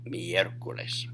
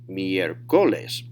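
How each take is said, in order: First: The stress is on the first syllable. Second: The stress is on the second syllable. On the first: The speaker calls it right. "instead they say miércoles" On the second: The speaker calls it wrong. "The next to the last syllable"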